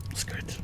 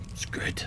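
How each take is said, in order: First: Very soft, voiced murmur; a quiet, contented murmur. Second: Breathy whisper, barely there; a hushed, reverent whisper; whispered aside. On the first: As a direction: murmur it quietly, almost to yourself. Repeats the aside, voiced. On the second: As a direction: whisper it to yourself in awe. Hushed aside about the book. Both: Real, not acted.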